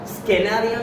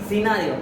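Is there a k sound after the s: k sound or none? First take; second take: k sound; none. First: A k sound follows the s. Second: No k sound follows the s. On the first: The speaker calls it wrong. "स्केनारिओ नाही म्हणत" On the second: The speaker calls it right. "सी silent letter"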